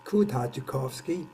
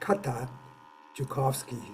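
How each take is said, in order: First: The name is said with a non-American pronunciation. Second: The name is said with an American pronunciation. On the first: "I'm not American, so I like I read it as" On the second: "the Americans would uh, read it as"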